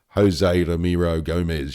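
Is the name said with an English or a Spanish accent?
English. The name is said with a flat English accent. The speaker calls it wrong. "You can't just sort of say"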